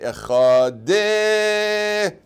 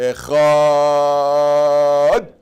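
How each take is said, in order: First: An extra vowel is added after the final d. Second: The middle ch sound is drawn out long. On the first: "which is clearly wrong" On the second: "That's expending the ches"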